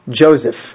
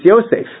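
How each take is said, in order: First: The name begins with a J sound. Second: The name begins with a Y sound. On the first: The speaker calls it wrong. "that's a mistaken pronunciation" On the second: The speaker calls it right. "it makes a Y sound"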